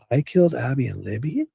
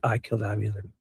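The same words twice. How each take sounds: First: The voice rises at the end like a question. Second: The voice falls at the end like a statement. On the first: He is asking back what the others accused him of. "like in a question form" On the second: He is confessing to the act. "if you don't add that, you know, connotation, that inflection of the words"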